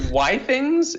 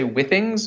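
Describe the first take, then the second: First: The first syllable sounds like 'why'. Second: The first syllable sounds like 'with'. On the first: This was the original pronunciation. "it was originally why things" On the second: This is the current pronunciation. "correct to say withings"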